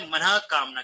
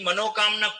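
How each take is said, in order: First: The first part ends in a breathy 'ah' sound. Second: The first part ends in an 'o' sound. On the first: The speaker calls it right. "आप तो ऐसे बोले" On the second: The speaker calls it wrong. "ऐसा बोले भी मत"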